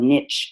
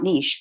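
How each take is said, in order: First: It uses the American pronunciation. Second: It uses a non-American pronunciation. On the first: The speaker calls it right. "we have to use the American pronunciation" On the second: The speaker calls it wrong. "not niche because we're in America"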